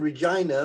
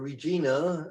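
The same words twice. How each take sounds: First: The name is pronounced the ordinary English way. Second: The name is pronounced the Latin way.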